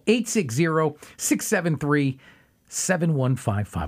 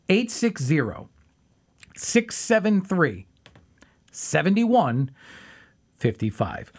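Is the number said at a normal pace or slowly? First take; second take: normal; slowly. First: It is said at a normal pace. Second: It is said a little more slowly.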